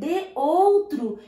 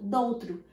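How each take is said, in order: First: The two words are said separately, keeping both vowels. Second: The words merge into one, dropping the first vowel. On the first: "ao invés de escrever de outro" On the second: "só o de mesmo, sem o e, apóstrofo"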